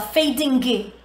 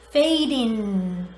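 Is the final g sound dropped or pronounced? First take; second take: pronounced; dropped. First: The final g sound is clearly pronounced. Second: The final g sound is dropped. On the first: The speaker calls it wrong. "Termina com G, mas você não fala fading" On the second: The speaker calls it right. "Tudo que termina com ing, você não fala o G"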